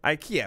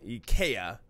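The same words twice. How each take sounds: First: It uses the common American pronunciation of the name. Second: It starts with an 'ee' sound, then 'kay', then 'uh'. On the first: This is how most people in the country say it. The speaker calls it wrong. "IKEA is what I say. I think what most people say here in the United States of America" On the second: This is how it is said in Portugal. The speaker calls it right. "Two E's dash K A Y, IKEA, uh, dash U H is the correct pronunciation"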